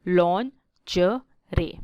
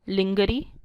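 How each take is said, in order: First: It is said as 'lon-zhuh-ray', French-like. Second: It is said as 'lin-ger-ee', as spelled. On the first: The speaker calls it right. "But it is लॉन्जरे" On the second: The speaker calls it wrong. "It's not लिंगरी"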